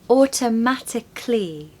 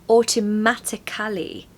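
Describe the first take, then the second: First: The ending is said as a short 'clee' sound. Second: The ending is said as a full 'cally' syllable. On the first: The speaker calls it right. "The hack is it's actually just clee" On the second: The speaker calls it wrong. "People tend to say automatically"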